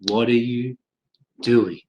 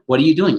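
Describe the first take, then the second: First: It is said very slowly, beat by beat. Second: It is said fast, at news speed.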